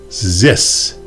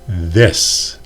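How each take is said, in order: First: The word begins with a buzzing Z sound. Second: The word begins with a voiced TH sound. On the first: The speaker calls it wrong. "saying D or Z instead of the voiced Th" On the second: The speaker calls it right. "the voiced Th"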